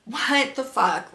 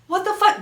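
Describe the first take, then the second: First: Slow, dragged-out what the fuck; mock exasperated, said slowly; drawn-out disbelief. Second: High, startled what the fuck; sudden shocked exclamation, much higher; shocked outburst. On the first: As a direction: stretch each word in weary disbelief. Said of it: "because I was like". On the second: Real, not acted. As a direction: blurt it out in disbelief. Reacting to doctor's message.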